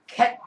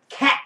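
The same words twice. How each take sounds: First: The vowel is a narrow, Korean-style e. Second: The vowel is a wide-open ae sound. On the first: The speaker calls it wrong. "이건 한국어 한 겁니다" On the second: The speaker calls it right. "입을 크게 벌리고 cat 하고 해야지"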